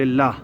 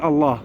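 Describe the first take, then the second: First: الله as "illah" with a thin, light L; thin out the L of الله after an i vowel. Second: الله with a thick, dark "Allah" L; heavy L. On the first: Teacher gives the rule after kasra, light L. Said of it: "إذا كانت القبل لفظ الجلالة كسرة". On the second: Teacher gives the rule after fatha or damma, heavy L. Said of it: "إذا كان قبل لفظ الجلالة فتحة". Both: Shown as a demonstration.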